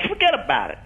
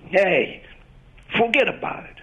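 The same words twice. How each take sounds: First: Irish American accent, "Forget about it" lifting up at the end; higher Irish American lilt, ending up. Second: Italian New York accent, "forget about it" falling at the end; Italian New York mobster accent, higher, ending down. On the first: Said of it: "the Irish all goes up". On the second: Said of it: "the inflection at the end always tends to go down". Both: Shown as a demonstration.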